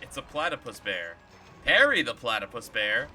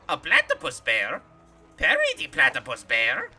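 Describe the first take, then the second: First: It is said in his normal voice. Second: It is said in a Doofenshmirtz impression voice.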